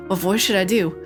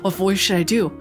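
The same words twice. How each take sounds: The two takes are said the same way.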